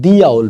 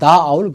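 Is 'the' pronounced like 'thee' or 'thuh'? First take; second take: thee; thuh. First: 'The' is said with a long 'thee' vowel. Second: 'The' is said with a short 'thuh' vowel. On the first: The speaker calls it right. "दी owl भी कह सकते हैं" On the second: The speaker calls it wrong. "पर दा owl गलत हो जाएगा"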